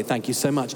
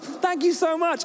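First: Lower, fast, dutiful and dull; flat edited email. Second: Much higher, slow, overflowing thanks; gushing thanks. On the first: Preacher reading the edited email, lower and flat. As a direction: read it as the grown-up version with full stops. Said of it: "And I read it, it's like". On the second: Preacher reading his email before editing, gushing and high. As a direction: sing out the thanks with exclamation marks. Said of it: "each sentence is like". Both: Retold or imitated.

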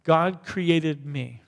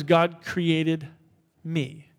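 First: Each word slow and deliberate, "God created me" drawn out; measured congregational recitation; slow declaration. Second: Slow spoken declaration. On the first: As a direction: spell it out word by word for the room to follow. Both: Shown as a demonstration. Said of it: "For you to say that".

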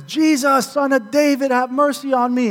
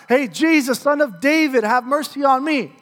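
First: High-pitched mock scream, only moderately loud; imitating a beggar's more insistent yell; retold louder scream. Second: Higher-pitched imitation of calling out; mock yell of a pleading beggar; retold yell. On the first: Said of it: "he even screams louder". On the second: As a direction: call out for mercy, pitched up but not at full volume. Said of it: "he starts to yell out".

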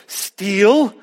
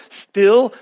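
First: "Steal" corrected from the Texas "stihl" to a clear long ee; "Steal" said with a long, clean ee, no Texas accent; careful pronunciation. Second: Texas drawl on "steal", vowel short like "still"; "steal" with a Texan short i, like "stihl"; Texas accent. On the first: Shown as a demonstration. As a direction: fix the Texas vowel: "Steal" with a full, long ee. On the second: Real, not acted. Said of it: "My Texas accent won't let me say that".

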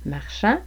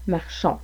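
First: "Marchand" ending in open nasal "an"; "Marchand", final vowel clearly not "on". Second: "marchons" ending in rounded "on"; "marchons", final vowel clearly not "an"; closed on. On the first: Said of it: "un an qui est plus ouvert". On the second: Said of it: "plus de distinction entre le on et le an". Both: Shown as a demonstration.

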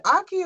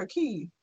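First: "Aki" stressed on the first syllable; first pronunciation option. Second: "Aki" stressed on the final syllable; second pronunciation option. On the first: Asking co-host which is right, "Aki" front-stressed. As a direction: lean on the opening vowel of "Aki". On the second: Offering co-host the alternative, "Aki" end-stressed. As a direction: land on the "key" ending of "Aki". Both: Shown as a demonstration. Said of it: "Is it Aki or Aki?".

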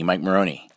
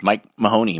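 First: "Maroney" said with an R sound, ma-RO-nee; the R version of "Maroney". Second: "Mahoney" said with an H sound, ma-HO-nee; the H version of "Mahoney". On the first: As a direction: say "Maroney" clearly with the R. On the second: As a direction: say "Mahoney" clearly with the H. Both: Shown as a demonstration. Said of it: "my name is with an H".

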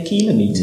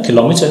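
First: "kilometer" as KIL-uh-MEE-ter; "kilometer" as kilo plus meter; first-syllable stress. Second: "Kilometer" as kih-LOM-iter; "Kilometer" rhyming with thermometer; second-syllable stress. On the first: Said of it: "Some people say kilometer". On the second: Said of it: "some people say". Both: Shown as a demonstration.

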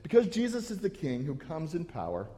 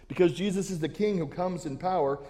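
First: Said in the usual way. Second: "Because Jesus is the King who comes in power" pressed harder, each word weighted; emphatic restatement. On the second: Shown as a demonstration. Pastor hammering his main point to the church, emphatic. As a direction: drive the main point home. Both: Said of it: "repeated louder as the key line".

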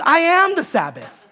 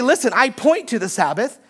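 First: I am the Sabbath, am punched; stress on am. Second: Said in the usual way. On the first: Shown as a demonstration. Preacher stressing am to the congregation. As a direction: lean hard on am in "I am the Sabbath". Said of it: "That's the difference". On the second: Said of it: "He doesn't say that".

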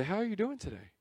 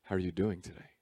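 First: Said in the usual way. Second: Really-asking "How are you doing today?"; earnest pastor stress on doing. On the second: Shown as a demonstration. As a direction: press "doing" like a caring pastor. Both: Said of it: "one of those pastor things".

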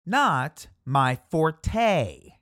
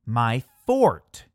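First: Forte said slowly as for-tay, the wrong way. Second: Forte said like fort, one syllable, no ending. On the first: Showing the common mistake, slow for-tay. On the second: Correcting viewers, forte said as fort. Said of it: "You heard me right". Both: Shown as a demonstration.

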